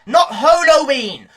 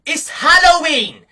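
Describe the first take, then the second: First: Slow "Halloween" with first syllable said "hoe"; punning Halloween as hoe-loween. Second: Slow, stressed "Halloween" with its usual first vowel; emphatic Halloween. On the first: Mocking skimpy costumes, "Halloween" said slowly as "hoe-loween". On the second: Telling girls what the holiday is, emphatic slow "Halloween". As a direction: spell out "Halloween" slowly and firmly. Contrasts the word with a pun. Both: Shown as a demonstration.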